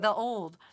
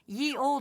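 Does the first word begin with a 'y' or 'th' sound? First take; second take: th; y. First: The first word begins with a 'th' sound. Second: The first word begins with a 'y' sound. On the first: The speaker calls it right. "It's pronounced the old" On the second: The speaker calls it wrong. "ye old is not a thing"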